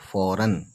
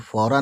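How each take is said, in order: First: The word ends with an 'n' sound. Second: The word ends on a plain vowel. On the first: The speaker calls it right. "तो ये हो गया फौरन" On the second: The speaker calls it wrong. "फौरा नहीं पढ़ेंगे"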